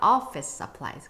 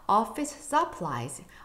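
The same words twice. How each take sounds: First: The stress is on office. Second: The stress is on supplies.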